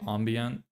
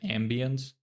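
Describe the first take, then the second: First: The word is said in a posh-sounding way. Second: The word is said in a plain, ordinary way. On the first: This is the speaker's own habit. "I say ambient. ... I sound too like posh saying it like that" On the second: This is how other people say it. "some people say"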